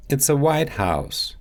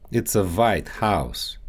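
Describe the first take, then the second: First: Said in the usual way. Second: Russian accent. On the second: Shown as a demonstration. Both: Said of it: "W and V sounds".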